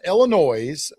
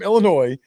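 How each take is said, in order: First: The final S is pronounced at the end. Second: The final S is left silent at the end. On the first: The speaker calls it wrong. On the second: The speaker calls it right.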